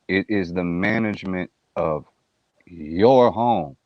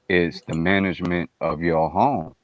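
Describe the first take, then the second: First: The sentence is said with strong, deliberate emphasis. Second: The sentence is said plainly, without extra emphasis.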